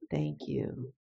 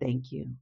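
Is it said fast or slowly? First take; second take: slowly; fast. First: It is said slowly and more quietly. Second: It is said at a quicker pace.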